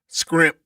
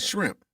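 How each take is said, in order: First: The word begins with an 'scr' sound. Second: The word begins with an 'shr' sound. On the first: "they call them scrimp" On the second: "instead of shrimp"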